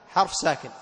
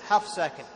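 Both takes have the same delivery.

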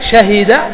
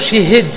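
First: Open a after sh, i after h. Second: Vowel i after sh, i after h.

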